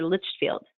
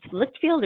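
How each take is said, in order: First: "Litchfield" with a soft CH, as LITCH-field; alternative pronunciation. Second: "Litchfield" with a hard K in the first syllable; tentative pronunciation. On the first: Consultant offering the client another option, soft-CH pronunciation. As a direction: say "Litchfield" with the first syllable rhyming with witch. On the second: Consultant checking a client's name, tentative hard-K pronunciation. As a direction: say "Litchfield" as LIKT-field, with a short i. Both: Shown as a demonstration. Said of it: "How do I say it".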